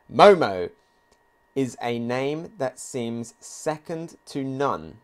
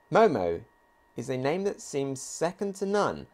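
First: Slow, weighty reading of the manga quote; solemn reading of the line. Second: Said in the usual way. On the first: Acted. Reading the line aloud to viewers, slow and solemn. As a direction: read it slowly, like a proclamation.

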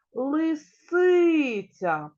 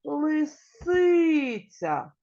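First: Лисиця with СИ drawn out and loud; stress on second syllable. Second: Лисиця with СИ held long and loud; stress on second syllable. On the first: Teacher shows children the stressed syllable, slow and loud. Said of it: "який склад буде наголошений". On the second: Teacher confirms the stressed syllable for children, slow and loud. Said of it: "Правильно, другий". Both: Shown as a demonstration. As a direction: stretch and punch СИ in Лисиця, slowly.

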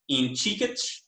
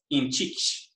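First: IN CHIKICH with the post-tonic i said; in chikich, slowly, with a full unstressed final syllable; vowel kept. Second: IN CHICH with the last vowel dropped; in chich, no vowel after the stress; post-tonic vowel deleted. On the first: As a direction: stress chi in chikich, keep the last vowel. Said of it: "alternating with in chich with deletion". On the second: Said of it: "with deletion of that posttonic". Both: Shown as a demonstration.

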